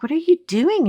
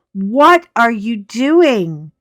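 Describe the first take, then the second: First: Pitched way up in disbelief; high, bewildered what are you doing; baffled question. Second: Louder, slow and drawn out; slow, loud, incredulous what are you doing; exasperated question. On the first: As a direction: ask it like you can't believe your eyes. Quoting herself, baffled at friend. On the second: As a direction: stretch every word in disbelief. Quoting herself again, exasperated. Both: Retold or imitated.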